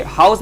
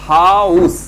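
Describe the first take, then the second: First: Said in the usual way. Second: "हाउस" drawn out loudly, both vowels exposed; vowel-sound demo. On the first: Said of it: "देखिए, हाउस में क्या था". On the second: Shown as a demonstration. Teacher showing learners the two vowels in house, vowel-sound demo. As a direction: stretch the "आ" into "उ" in "हाउस". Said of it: "तो आउ, मतलब दो था".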